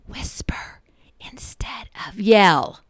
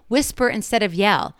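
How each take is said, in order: First: It is said in a whisper. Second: It is said in a normal voice.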